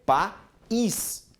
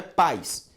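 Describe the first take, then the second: First: País in two higher beats, pa, then a stressed ÍS; país with the i strong and set apart from the a. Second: Paz as one quick syllable, pais, with a weak i; wrong pronunciation. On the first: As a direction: split país as pa... ÍS. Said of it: "a pronúncia do I agora é forte". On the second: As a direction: run the vowels of paz together into a single pais. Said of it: "não é paz". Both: Shown as a demonstration.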